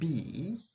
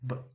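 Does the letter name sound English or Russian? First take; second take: English; Russian. First: It sounds like the English letter name. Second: It sounds like the Russian letter name. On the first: The speaker calls it wrong. "Not B, because yeah, you want to pronounce it as B" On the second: The speaker calls it right. "don't do that because it's B"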